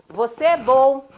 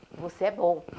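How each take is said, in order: First: Loud, slow kind call into the mountains; father showing his son the echo. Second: Answering echo. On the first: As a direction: call the praise out warmly and slowly. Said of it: "o pai fala". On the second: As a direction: let it come back faintly. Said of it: "escuta uma voz". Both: Retold or imitated.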